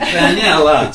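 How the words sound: It is said in an Italian accent.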